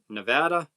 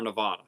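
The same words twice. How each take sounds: First: Nevada, middle vowel as in "cat"; short "vad" in Nevada. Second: Nevada, middle vowel opened to "vah"; broad ah in Nevada. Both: Shown as a demonstration. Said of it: "You guys pronounce it Nevada or Nevada".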